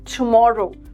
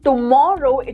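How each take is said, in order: First: The t is said like an English t. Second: The t is said like the Hindi ट sound. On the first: The speaker calls it right. "it is tomorrow" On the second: The speaker calls it wrong. "it is not tomorrow"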